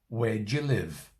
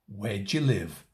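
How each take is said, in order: First: The auxiliary is reduced and joined to where. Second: The same.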